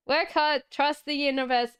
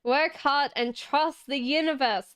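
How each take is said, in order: First: "Work hard" stressed, then "trust the universe" quicker; emphatic repeat. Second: Said in the usual way. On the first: Real, not acted. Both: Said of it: "Last one".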